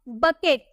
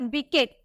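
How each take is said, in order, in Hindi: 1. पहला अक्षर छोटी 'buh' ध्वनि से शुरू होता है। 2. पहला अक्षर 'bee' ध्वनि से शुरू होता है। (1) "सही प्रोनाउंसिएशन हम बकेट बोलते हैं" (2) "बिकेट नहीं बोलते"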